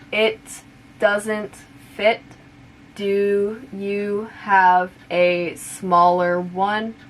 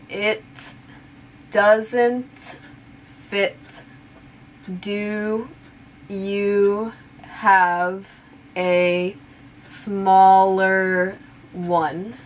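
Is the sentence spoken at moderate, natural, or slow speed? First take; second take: moderate; slow. First: The sentence is spoken somewhat faster. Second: The sentence is spoken slowly. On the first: "now a little bit faster" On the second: "I'll say it slowly first"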